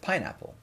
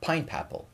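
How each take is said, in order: First: No extra sound comes before 'apple'. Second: An extra p sound comes before 'apple'. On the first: This is the usual adult form. "instead of pineapple" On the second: A small child is still learning to talk. "saying words like uh, pine-papple"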